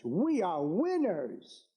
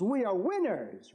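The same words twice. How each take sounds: First: We are winners, drawn out slowly; slow it right down and land each word; slow emphatic repeat. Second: Said in the usual way. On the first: Real, not acted. Rally speech, repeated slogan.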